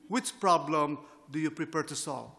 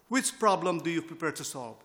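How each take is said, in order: First: It is spoken very slowly. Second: It is spoken at a normal speed.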